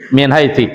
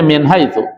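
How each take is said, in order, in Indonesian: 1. Kata terakhir diakhiri dengan vokal i. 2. Kata terakhir diakhiri dengan vokal u. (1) "salah itu ya" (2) "tetap bacanya min haitsu"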